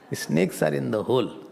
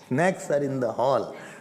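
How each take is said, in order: First: The last word is said as 'hole'. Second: The last word is said as 'hall'.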